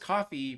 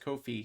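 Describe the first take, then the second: First: It sounds like the drink coffee. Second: It rhymes with no fee. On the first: The speaker calls it wrong. "I thought it was coffee because uh, it's like buying someone a cup of coffee" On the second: The speaker calls it right. "apparently it's Kofi because it rhymes with no fee"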